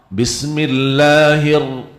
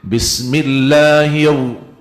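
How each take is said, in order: First: The r follows directly, lips not rounded. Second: The r is colored by rounded lips. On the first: The speaker calls it right. "langsung sambung kepada ra" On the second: The speaker calls it wrong. "Tidak boleh"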